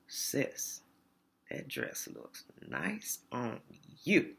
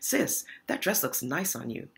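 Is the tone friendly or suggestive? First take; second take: suggestive; friendly. First: The compliment sounds leering and suggestive. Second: The compliment sounds plain and friendly. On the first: It is an inappropriate, flirtatious remark. The speaker calls it wrong. "Same words, different delivery" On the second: It is an innocent compliment. The speaker calls it right. "That's okay"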